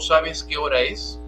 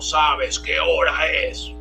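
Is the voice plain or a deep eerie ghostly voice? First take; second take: plain; ghostly. First: It is said in a plain normal voice. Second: It is said in an eerie ghostly voice.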